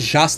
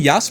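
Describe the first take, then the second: First: The name begins with a 'zh' sound. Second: The name begins with a 'y' sound. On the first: It follows the local reading of the letter. "Pode ser Jas também" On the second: It follows the European reading of the letter. "o J tem som de I"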